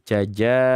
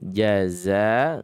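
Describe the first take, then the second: First: The middle consonant is a j sound. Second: The middle consonant is a z sound. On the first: The speaker calls it wrong. "ada juga yang menyebutkan begini, jaja" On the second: The speaker calls it right. "di sini jaza za"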